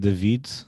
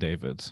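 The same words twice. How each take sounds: First: The name has a Portuguese pronunciation. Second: The name has an American pronunciation. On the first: This is how the name is said at home. "So in my country, you would say David" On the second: This is how the name is said in the US. "American sounds better when they say David instead"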